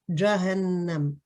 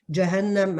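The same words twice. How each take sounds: First: The first syllable is pronounced heavy and emphatic. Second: The first syllable is pronounced light and thin. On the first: The speaker calls it wrong. "Toi, tu dis par exemple" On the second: The speaker calls it right.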